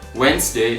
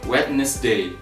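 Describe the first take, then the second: First: It is said with two syllables. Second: It is said with three syllables. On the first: The speaker calls it right. "this word only has two syllables" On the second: The speaker calls it wrong. "instead of Wednesday"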